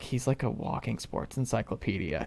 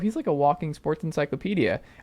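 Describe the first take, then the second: First: It is said in a mocking, dismissive tone. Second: It is said in a warm, admiring tone. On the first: It is meant as a put-down. "the other way of saying it" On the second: It is meant as a compliment. "There's like, oh"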